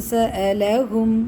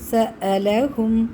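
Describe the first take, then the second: First: The glottal stop is clearly pronounced. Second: The glottal stop is clearly pronounced.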